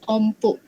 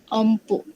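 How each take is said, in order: Both takes have the same delivery.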